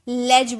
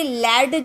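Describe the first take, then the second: First: The word ends with a j sound. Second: The word ends with a plain d sound. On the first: The speaker calls it right. "इसे लेज बोलते हैं, ज का sound आता है" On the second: The speaker calls it wrong. "इसे लैड नहीं बोलते"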